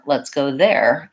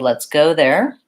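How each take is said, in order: First: The stress falls on the word there. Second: The stress falls on the word go. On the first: "I could also stress there" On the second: "I'm stressing go"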